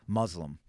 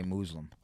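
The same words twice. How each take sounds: First: Said in the usual way. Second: "Muslim" said as MOOZ-lum; "Muslim" with first syllable like moose, but voiced z; friend's pronunciation. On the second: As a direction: imitate him saying "Muslim" with a long oo. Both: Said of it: "how he would say Muslim".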